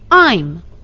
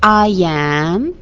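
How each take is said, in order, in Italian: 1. Il verbo è abbreviato e unito al pronome. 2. Il verbo viene pronunciato come una parola separata e piena. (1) "Nella forma contratta, ... scompare la vocale iniziale del verbo" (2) "La forma intera"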